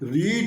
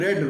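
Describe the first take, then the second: First: The vowel is long, as in 'reed'. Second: The vowel is short, as in 'red'. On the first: It is the verb's base form. "रीड पहला form को बोलते हैं" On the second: It is the verb's past form. "रेड रेड second third form को बोलते हैं"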